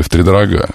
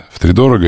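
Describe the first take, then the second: First: "втридорога" accented on the final "га"; stress on last syllable. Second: "Втридорого" accented on "до"; stress on third syllable. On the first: Host offers the other option, final stress on "втридорога". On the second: Host offers one option, stress on "до" in "Втридорого". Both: Shown as a demonstration. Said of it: "как правильно сказать?".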